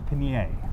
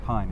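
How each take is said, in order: First: The name is said with several syllables. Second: The name is said as one syllable. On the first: The speaker calls it right. "it's Pinier" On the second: The speaker calls it wrong. "It's not Pine"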